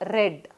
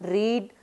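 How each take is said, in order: First: The vowel is short, like in 'red'. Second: The vowel is long, like in 'reed'. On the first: The action happened in the past. "but in past tense, same read is pronounced as read" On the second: The action happens habitually in the present. "Here in the simple present tense, we used to pronounce as read"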